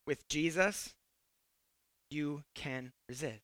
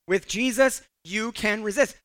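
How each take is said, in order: First: Very soft, low and deliberate; quiet, low, measured reassurance; hushed assurance. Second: Said in the usual way. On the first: Real, not acted. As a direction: drop right down, pausing between phrases. Hushed line, then repeated firmly.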